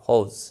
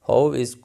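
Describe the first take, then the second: First: The two words merge into one syllable. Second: The two words are said separately and fully. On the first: "जब बोलेंगे तो हाउज" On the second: "हाउ इज़ को"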